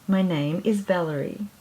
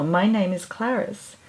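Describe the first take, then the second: First: Happy bird voice. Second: Lightly voiced beaming mouse. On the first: Acted. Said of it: "she said happily". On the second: Mouse introduces herself to the bird, lightly voiced and beaming. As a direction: introduce yourself with a bright mouse smile. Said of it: "The mouse beamed back".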